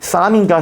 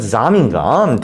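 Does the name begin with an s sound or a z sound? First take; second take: s sound; z sound. First: The name begins with a tense s sound. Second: The name begins with a z-like sound. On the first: This is the reading an English-language news reporter uses. "블룸베르크 기자는 쌈이라고 발음을 하는 것 같아" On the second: This is the reading the name would have in German. "독일어면 잠이 맞거든요"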